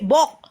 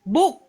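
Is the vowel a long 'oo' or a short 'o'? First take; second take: short o; long oo. First: The vowel is a short o sound. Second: The vowel is a long oo sound. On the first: The speaker calls it wrong. "Apakah artis berarti dibaca B" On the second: The speaker calls it right. "Coba dia suruh baca bahasa Inggris"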